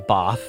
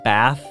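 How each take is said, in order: First: It is said with a long British vowel. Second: It is said with an American vowel. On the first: "The Brits will say bath" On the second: "where Americans say ah, like bath"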